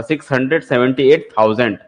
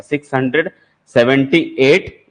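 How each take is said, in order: First: Said in the usual way. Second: "six hundred" then a pause, then "seventy eight" drawn out slowly; slow chunked reading. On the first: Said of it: "इतना पूरा". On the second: Shown as a demonstration. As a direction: spell the number out slowly for students. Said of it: "ऐसा". (धीरे-धीरे रुककर संख्या पढ़ना)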